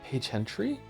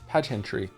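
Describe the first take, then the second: First: It is said like two words, Paige Hentry. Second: It is said as one word, pageantry. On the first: The speaker calls it wrong. "I'm either saying this wrong" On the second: The speaker calls it right. "It's pageantry"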